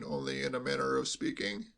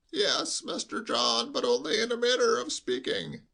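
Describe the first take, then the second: First: Said in the usual way. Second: High, slow, quavering bleat; old servant bleating his excuse; bleating old butler. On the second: Acted. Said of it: "bleated like a sheep".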